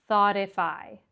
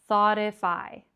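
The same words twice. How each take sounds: Both takes have the same delivery.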